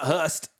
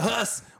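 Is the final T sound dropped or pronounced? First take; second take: pronounced; dropped. First: The word ends with a T sound. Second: The word ends without a T sound. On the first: The speaker calls it wrong. "not Hust" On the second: The speaker calls it right. "with no T"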